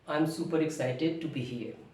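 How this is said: It is said weakly, sounding sick. "when you are sick"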